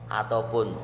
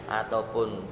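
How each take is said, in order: No difference in how they are said.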